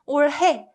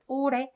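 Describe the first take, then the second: First: The h sound in the middle is clearly heard. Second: The h sound in the middle is silent. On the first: The speaker calls it wrong. "it's very uncomfortable and it's not necessary" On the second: The speaker calls it right. "So it's pronounced 오래"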